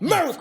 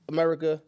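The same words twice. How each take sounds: First: The word is said loudly and forcefully from the chest. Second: The word is said in a plain, normal voice.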